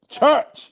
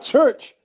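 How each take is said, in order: First: The R sound is dropped from the word. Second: The R sound is clearly pronounced. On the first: The speaker calls it right. "Drop the R. Just put church" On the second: The speaker calls it wrong.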